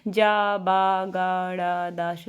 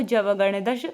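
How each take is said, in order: First: जाबा and गणदश said as separate pieces with a pause, गणदश drawn out slow and low; broken apart wrongly. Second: जवगणदश said smoothly as one combined word; joined as one word. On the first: Teacher demonstrates to students the wrong way, slow and split apart. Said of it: "अब ऐसे आप पढ़ेंगे जावा". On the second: Teacher shows students the right way, joined smoothly. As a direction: run जवगणदश together in one breath. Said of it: "नहीं तो ऐसे पढ़ना है आपको". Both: Shown as a demonstration.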